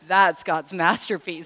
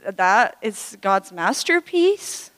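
First: It sounds proud and boastful, like bragging. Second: It sounds doubtful, like an unsure question. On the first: The speaker brags about being God's masterpiece. "this next attitude of our heart can shine through" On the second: The speaker doubts they are really God's masterpiece. "It's all in the intonation. So maybe you're like this"

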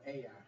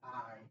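First: The name does not sound like 'eye'. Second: The name sounds like the word 'eye'. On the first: The speaker calls it right. "That's how you pronounce that" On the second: The speaker calls it wrong. "not I"

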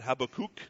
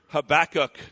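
First: The name is said with a Hebrew pronunciation. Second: The name is said with an English pronunciation.

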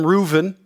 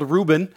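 First: The middle consonant is a V sound. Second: The middle consonant is a B sound. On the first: "the B has a V sound, so I call him Reuven" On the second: "His name is actually spelled Reuben"

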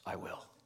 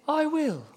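First: It is mumbled low and indistinctly. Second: It is said in a sweet, high, princess-like voice. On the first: "the husband mumbles his best" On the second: "she says in her best Disney princess voice"

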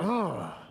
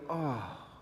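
First: It sounds angry and mad. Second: It sounds sorrowful, not angry.

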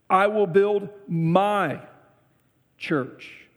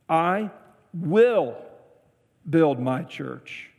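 First: The stress is on "my". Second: The stress is on "will".

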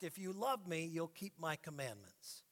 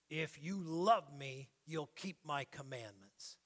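First: It is said calmly, as a plain fact. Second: It is said sternly, like a taskmaster.

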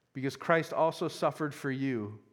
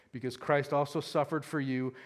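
Both takes have the same delivery.

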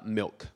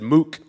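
First: The word has an L sound before the K. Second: The word has an oo vowel with no L. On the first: "only she didn't pronounce it milk" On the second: "She said mook, which is a terrible way to say milk"

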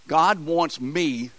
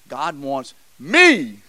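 First: It is said plainly, with no special stress on me. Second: The word me is strongly stressed.

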